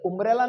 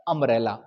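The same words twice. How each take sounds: First: उम्ब्रेला with a rounded "oo" at the start, the mistake; उम्ब्रेला as a learner's error; wrong umbrella. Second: अम्ब्रेला with a short open "uh" at the start; lower, correcting the error: अम्ब्रेला opens on "a" not "oo"; अम्ब्रेला, the right way, said low and firm; correct umbrella. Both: Shown as a demonstration. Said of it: "उम्ब्रेला नहीं है".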